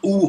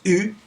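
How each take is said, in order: First: The vowel is said with a relaxed throat. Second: The vowel is said with a tight throat. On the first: The speaker calls it wrong. "it's not U or anything like that" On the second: The speaker calls it right. "a round mouth, O, but you tighten the throat"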